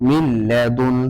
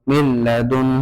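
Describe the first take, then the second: Both takes have the same delivery.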